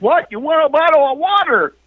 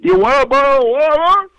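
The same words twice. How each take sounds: First: High, quick, strained retold question; high-pitched, fast mock yell; clearer repeat. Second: High, garbled mock question; can't talk properly. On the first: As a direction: repeat it urgently so it gets understood. Repeats garbled question more clearly. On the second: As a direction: mumble it high, words smeared together. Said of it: "I can't talk very good".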